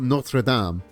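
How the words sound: It is pronounced the French way. It names the cathedral in France. "Like in France, you've got Notre Dame"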